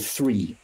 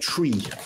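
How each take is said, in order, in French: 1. Il commence par un son 'th'. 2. Il commence par un simple son 't'. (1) "au lieu de three" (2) "on était censé dire three"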